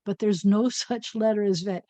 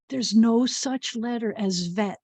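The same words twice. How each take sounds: First: "no such letter" with a small laugh; laughing secret. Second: Slow, confiding "no such letter"; secret reveal. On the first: Teacher letting children in on a secret, amused. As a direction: giggle through the secret. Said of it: "Pretend I didn't tell you that". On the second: Teacher sharing a secret with the children, slow and confiding. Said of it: "here's the secret". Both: Real, not acted.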